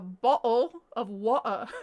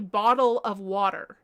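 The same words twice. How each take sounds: First: The t sounds and final r are dropped. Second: The t sounds and final r are pronounced. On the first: The speaker calls it right. "Just drop the R's. It's a" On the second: The speaker calls it wrong. "it's not a"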